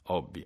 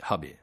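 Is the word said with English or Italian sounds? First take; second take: Italian; English. First: It is said with Italian sounds. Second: It is said with English sounds. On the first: This is how almost everyone says it. "tutti noi diciamo" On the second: Only a few sticklers say it this way. "suoni non italiani... pochi maniaci"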